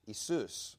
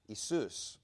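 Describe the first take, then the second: First: The name is said the Greek way, Iesous. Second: The same.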